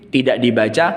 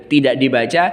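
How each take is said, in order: The two takes are said the same way.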